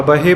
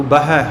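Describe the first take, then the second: First: ਬਹੇ as "ba-hay", closed e; ਬਹੇ with e, not open ai; wrong closed vowel. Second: ਬਹਿ as "ba-hai", open ai; ਬਹਿ with ai, not a closed ay; open final vowel. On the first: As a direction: end ਬਹੇ on a narrow ay sound. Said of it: "ਪਾਠ ਨਹੀਂ ਹੈ". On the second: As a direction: end ਬਹਿ on an open ai sound. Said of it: "ਹਾਹੇ ਨੂੰ ਦੁਲਾਵਾਂ ਨਾਲ". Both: Shown as a demonstration.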